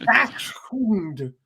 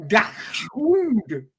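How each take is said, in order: First: "Dachshund" said as "ashhund" in a mock Swedish accent; light Swedish-accented "Dachshund". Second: "Dachshund" said as "dahund", higher, mock Swedish; lightly Swedish "Dachshund", no ch sound; Swedish accent. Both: Shown as a demonstration. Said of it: "a Swedish accent".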